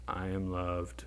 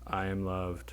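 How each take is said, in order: Both takes have the same delivery.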